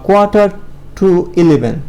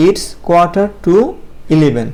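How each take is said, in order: First: Said in the usual way. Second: Very slow it's quarter to eleven, each word drawn out; teacher repeating it's quarter to eleven slowly; slow model phrase. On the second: Shown as a demonstration. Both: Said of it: "আমরা এটা এভাবে বলতে পারি".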